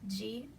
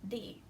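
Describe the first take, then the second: First: The syllable begins with a soft 'j' sound. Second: The syllable begins with a plain hard 'd'. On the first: "we might hear G or D" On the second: "we might hear G or D"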